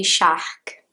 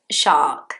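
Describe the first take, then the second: First: "shark" with a throaty H before the k; wrong strong R. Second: "shark" with long open vowel, R silent; British shark. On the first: Teacher showing learners the mistake, "shark" with Brazilian R. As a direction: say "shark" as "shahhk". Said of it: "So you can't say shark". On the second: Teacher giving the right form, "shark" with silent R. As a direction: say "shark" as a smooth "shaak". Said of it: "No, is it shark?". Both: Shown as a demonstration.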